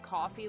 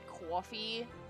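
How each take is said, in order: First: It is said in a plain, neutral accent. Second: It is said in a New York accent.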